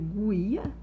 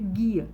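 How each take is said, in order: First: A separate U sound follows the G. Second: The G goes straight into the I. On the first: The speaker calls it wrong. "eu leio guia? Não" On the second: The speaker calls it right. "o G e o U foi falado de uma única vez"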